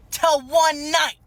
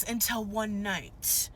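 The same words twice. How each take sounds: First: ONE dragged out, slow and louder; stressed, dramatic. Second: Said in the usual way. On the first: A narrator's reading. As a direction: lean hard on ONE in "Till one night", slow and loud. Dramatic repeat of key moment.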